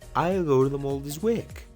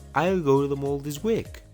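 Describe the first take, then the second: First: 'I will' is shortened into one syllable. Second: The same.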